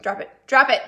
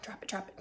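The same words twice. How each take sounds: First: Sung, drop it, drop it called out with a rise; sung-out chant. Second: Whispered. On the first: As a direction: call it out like a dance chant. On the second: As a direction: drop it, drop it whispered with no voice. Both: Real, not acted. Playful chant for soup recipes.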